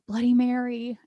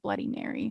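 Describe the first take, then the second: First: The name is said a little louder and bolder. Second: The first word is stuttered before the name. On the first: She is gaining courage. "she says it again a little braver" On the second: She is nervous at the last try. "she stutters a little bit on the first word"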